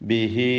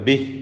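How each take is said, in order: First: The final vowel is held for two counts. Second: It ends sharply on the consonant. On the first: The reading continues into the next word. "ഹായിനെ രണ്ട് ഹറക്കത്തിന്റെ അളവിൽ ദീർഘിപ്പിക്കൽ നിർബന്ധമാണ്" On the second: The reading stops at this word. "സുക്കൂനോട് കൂടി വഖഫ് ചെയ്യുകയും വേണം"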